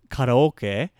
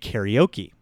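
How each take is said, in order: First: The word is said with Japanese pronunciation. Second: The word is said with American English pronunciation. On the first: "The word in Japanese" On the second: "they'll say karaoke"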